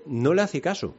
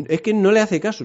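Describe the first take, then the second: First: Said in the usual way. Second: "no le hace caso" pitched higher and pushed harder; emphatic repeat. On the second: Shown as a demonstration. Preacher repeats to the congregation, insisting emphatically. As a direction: insist on "le", driving the point home.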